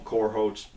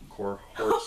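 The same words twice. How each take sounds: First: Said in the usual way. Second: Cohorts redone with a laugh, stretched; laughing retry. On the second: Real, not acted. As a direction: laugh at your own slip on Cohorts. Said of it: "Wow, I pulled a U".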